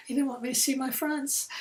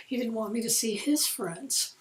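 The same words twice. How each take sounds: First: Said in the usual way. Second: "his" lifted with a rise; stress on his. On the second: Shown as a demonstration. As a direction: lean on the word "his".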